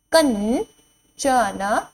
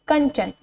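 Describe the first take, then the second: First: कंचन drawn out slowly, rising end; slow teacher drill; slow sounding out. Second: Said in the usual way. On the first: Shown as a demonstration. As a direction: stretch कंचन syllable by syllable. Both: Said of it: "word drill".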